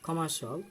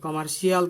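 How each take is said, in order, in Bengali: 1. শব্দটি 'shul' নামে একটিমাত্র ছোট অংশ দিয়ে শেষ হয়। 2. শব্দটি 'shee-al' নামে আলাদা দুটি অংশ দিয়ে শেষ হয়। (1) "They say commercial" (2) "কমার্শিয়াল কিন্তু আমরা বলবো না, শিয়াল কেউই বলে না"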